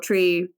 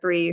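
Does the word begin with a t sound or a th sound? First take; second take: t; th. First: The word begins with a plain t sound. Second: The word begins with a th sound.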